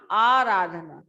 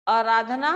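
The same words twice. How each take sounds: First: आराधना said correctly with a settled falling end; teacher gives the right आराधना firmly; correct form. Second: आराधना read as the misspelled form with a rising end; teacher sounds out the faulty आराधना like a question; wrong spelling read out. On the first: Teacher gives class the correct आराधना, falling finish. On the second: Teacher shows class the misspelled आराधना, questioning rise. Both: Shown as a demonstration. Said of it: "आजाद गलत है".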